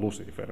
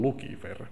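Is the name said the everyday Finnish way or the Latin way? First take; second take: Finnish; Latin. First: The name is said the everyday Finnish way. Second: The name is said the Latin way. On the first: The speaker calls it wrong. "Me aina sanotaan Lucifer" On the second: The speaker calls it right. "kun se on latinaa, niin itse asiassa se lausutaan Lucifer"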